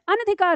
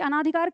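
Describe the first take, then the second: First: No long vowel follows the first syllable. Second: A long 'aa' vowel follows the first syllable. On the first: The speaker calls it right. "अनधिकार होता है" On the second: The speaker calls it wrong. "अनाधिकार कहना ही गलत है"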